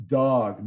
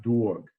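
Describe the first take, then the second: First: Dog with a standard open vowel; corrected vowel in dog. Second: Dog with a rounded Brooklyn aw; Brooklyn vowel in dog. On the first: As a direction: say dog without the Brooklyn vowel. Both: Shown as a demonstration. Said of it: "not dog".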